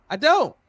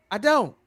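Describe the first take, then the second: No difference in how they are said.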